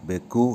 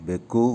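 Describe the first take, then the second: No difference in how they are said.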